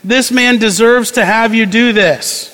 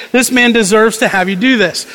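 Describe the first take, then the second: First: Earnest pleading. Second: Mock pleading. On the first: A narrator's reading. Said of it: "they pleaded earnestly with him". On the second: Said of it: "they plead".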